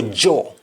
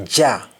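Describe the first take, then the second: First: "jaw" with rounded aw; "jaw" said JAW, lips rounded; English aw form. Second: "ja" said JAH; "ja" with open, unrounded ah; Jamaican ah form. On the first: Teacher giving the English word, "jaw" with round aw. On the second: Teacher showing what Jamaicans say, "ja" as jah. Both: Shown as a demonstration. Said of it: "we say ja".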